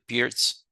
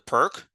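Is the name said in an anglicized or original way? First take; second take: original; anglicized. First: The name is said in its original way. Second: The name is said in an anglicized way. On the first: The speaker calls it right. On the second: The speaker calls it wrong.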